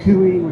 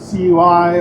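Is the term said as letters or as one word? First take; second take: one word; letters. First: It is said as one word, like cooey. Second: It is said as three separate letters.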